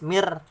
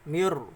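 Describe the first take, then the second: First: The r is said light and thin. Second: The r is said heavy and full. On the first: Stopping before the emphatic letter leaves the r light. "tarkik, tipis mir" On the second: A following emphatic letter makes the r heavy. "maka dibaca tafkhim atau tebal"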